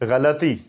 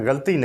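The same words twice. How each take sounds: First: The 'l' is followed by a short vowel. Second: The 'l' is closed off with no following vowel. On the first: The speaker calls it right. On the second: The speaker calls it wrong.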